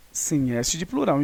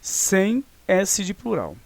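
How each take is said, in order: First: Said in the usual way. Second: Sem S de plural spelled out slowly with stress on sem; slow emphatic rule. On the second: Shown as a demonstration. Teacher slowly stressing sem S de plural to students. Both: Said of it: "olha só".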